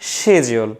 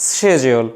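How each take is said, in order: First: The word begins with an sh sound. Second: The same.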